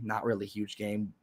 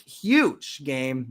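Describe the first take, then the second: First: Low, soft deflated aside on "huge game"; dropped-voice admission, hype gone; deflated walk-back. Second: HUGE stretched out for emphasis; announcing a big game, punch on HUGE; hyping it up. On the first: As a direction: take back "huge" quietly. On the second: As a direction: sell HUGE as a big deal. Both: Real, not acted.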